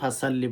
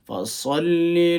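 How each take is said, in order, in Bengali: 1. শব্দটি অযত্নে উচ্চারিত, ধ্বনিগুলো বদলে গেছে। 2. শব্দটি যত্ন করে উচ্চারিত, ধ্বনিগুলো স্পষ্ট ও নির্ভুল।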